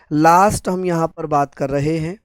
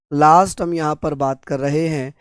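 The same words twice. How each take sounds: The two takes are said the same way.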